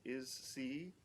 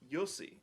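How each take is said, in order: First: It begins with a plain vowel, no Y. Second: It begins with a Y sound. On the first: The speaker calls it wrong. "I'm gonna try to pronounce this right" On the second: The speaker calls it right. "it's a Y"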